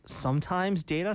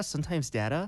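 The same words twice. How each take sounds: First: "data" with a long ay, like "day"; DAY-ta pronunciation. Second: "data" with a short a, as in "cat"; DA-ta pronunciation. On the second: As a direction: say "data" as DADD-uh. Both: Shown as a demonstration. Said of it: "Do you say data or data?".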